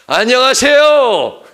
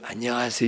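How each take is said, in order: First: It is called out loudly, as from afar. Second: It is said softly, as to someone close.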